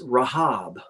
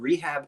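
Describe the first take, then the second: First: The name starts with an open 'rah' sound. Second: The name is said like the word rehab. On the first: The speaker calls it right. "It's Rahab" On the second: The speaker calls it wrong. "I've been saying that wrong the whole time"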